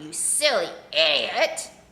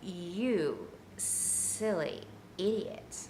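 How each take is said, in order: First: It is said in a plain, harsh, critical tone. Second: It is said in a soft, sultry, sexy tone. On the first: It puts the listener down. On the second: It has a pleasant, affectionate effect.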